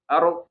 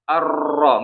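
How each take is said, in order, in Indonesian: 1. R-nya digetarkan pendek, dengan sedikit getaran. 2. R-nya digetarkan panjang, dengan banyak getaran.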